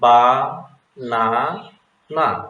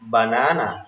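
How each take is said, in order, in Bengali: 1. প্রতিটি সিলেবল ধীরে ও আলাদাভাবে বলা হয়। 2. সিলেবলগুলো মসৃণভাবে জোড়া লেগে একটি শব্দ হয়ে যায়। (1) "এরকম ধীরে ধীরে পড়তে বলুন" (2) "প্রতিটি সিলাবল মিলিয়ে একসাথে পড়তে বলুন"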